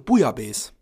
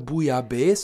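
First: The stress is on the first syllable. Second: The stress is on the last syllable. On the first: "Da wird immer die erste Silbe betont" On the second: "da gibt's auch keine Bouillabaisse"

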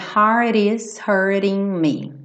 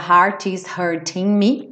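First: The t sounds are flapped, American style. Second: The t sounds are crisp and fully released.

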